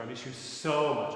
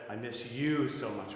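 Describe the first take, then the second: First: "so" stretched as the key word; stress on SO. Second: "you" stretched and made the key word; slow, soft line weighted on "you"; stress on YOU. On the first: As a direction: punch the word "so". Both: Shown as a demonstration. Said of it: "giving different stress to words".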